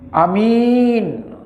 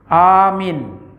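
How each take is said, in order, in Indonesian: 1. Vokal pertama pendek, vokal kedua panjang. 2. Vokal pertama panjang, vokal kedua pendek. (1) "A-nya pendek, min-nya yang panjang" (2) "A-nya panjang, mimnya pendek"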